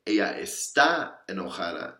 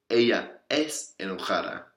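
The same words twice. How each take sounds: First: Está said with clear weight, marking the verb; stress on está. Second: Es said with clear weight, marking the verb; stress on es. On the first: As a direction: lean on the word está so the verb stands out. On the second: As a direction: lean on the word es so the verb stands out. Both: Shown as a demonstration. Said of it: "what's the difference?".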